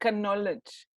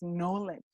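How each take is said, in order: First: The word begins with a K sound. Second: The word begins with an N sound. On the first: The speaker calls it wrong. "that mistake with some people uh, trying to pronounce knowledge" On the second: The speaker calls it right. "Nah, it's knowledge"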